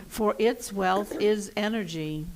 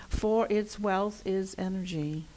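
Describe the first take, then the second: No difference in how they are said.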